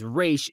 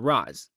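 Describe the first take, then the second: First: The name ends with an sh sound. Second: The name ends with a z sound. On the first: This is how the name is properly pronounced. The speaker calls it right. "the actual pronunciation is" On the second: This is how the films pronounce the name. The speaker calls it wrong. "not Raz, but that's how he was called in these movies"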